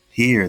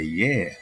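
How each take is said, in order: First: It is said in standard English. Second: It is said in a Louisiana accent.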